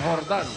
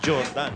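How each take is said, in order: First: The name begins with an H sound. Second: The name begins with a J sound. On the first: It is the Spanish-style pronunciation. "Castilla pronunciation yan" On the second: The speaker is of mixed or Afro-American background. "Pag yan medyo tisoy at saka medyo Afro-American"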